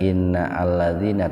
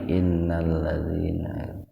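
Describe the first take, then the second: First: A glottal stop separates inna from alladzina. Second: Inna runs straight into lladzina with no stop. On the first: The speaker calls it wrong. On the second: The speaker calls it right.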